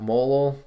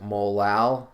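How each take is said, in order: First: The second syllable is weak and unemphasized. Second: The second syllable is clearly emphasized. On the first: It could be misheard as the word mole. The speaker calls it wrong. "some people just pronounce it molal, ... It sounds clunky" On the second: Listeners know exactly which word is meant. The speaker calls it right. "I emphasize the A and just pronounce it molal"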